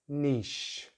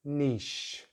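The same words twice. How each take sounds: First: The vowel is long, like 'ee'. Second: The same.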